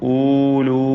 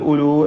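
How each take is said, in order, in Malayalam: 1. ആദ്യ സ്വരാക്ഷരം നീട്ടി ദീർഘമായി ഉച്ചരിക്കുന്നു. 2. ആദ്യ സ്വരാക്ഷരം ഹ്രസ്വമായി നിലനിർത്തുന്നു. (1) "ഊലു എന്നൊന്നും ഉച്ചരിച്ച് പോകരുത്" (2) "വഖഫിൽ ഉലു എന്ന് പറഞ്ഞ് നിർത്തണം"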